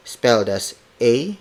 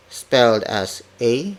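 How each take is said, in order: Both takes have the same delivery.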